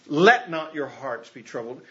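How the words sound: The stress is on "Let".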